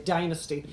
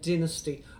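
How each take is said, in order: First: It is said with an American pronunciation. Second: It is said with a British pronunciation.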